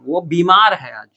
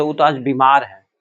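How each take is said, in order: First: बीमार drawn out slowly, long ई; long vowel. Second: बीमार with a short, quick first इ: "bimaar"; the wrong बीमार, first vowel not stretched. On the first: Teacher showing students how बीमार is said, long and slow. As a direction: stretch बीमार as "beee-maaar". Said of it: "लंबा बोलते हैं हम लोग". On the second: Teacher showing what we don't say, बीमार with short इ. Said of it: "ये नहीं बोलते". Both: Shown as a demonstration.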